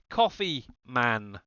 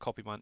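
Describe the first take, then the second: First: The first word sounds like the drink coffee. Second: The first word sounds unlike the drink coffee. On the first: The speaker calls it right. "as in the, the drink coffee" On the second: The speaker calls it wrong. "not Coffee Man"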